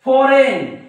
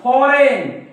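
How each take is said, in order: The two takes are said the same way.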